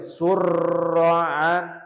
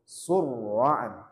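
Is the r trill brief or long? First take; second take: long; brief. First: The r is trilled for many vibrations. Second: The r is trilled only two or three vibrations. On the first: The speaker calls it wrong. "Nggak boleh" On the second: The speaker calls it right. "harusnya surra'an"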